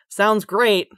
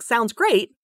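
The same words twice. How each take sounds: First: It sounds flat and sarcastic. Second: It sounds positive and sincere.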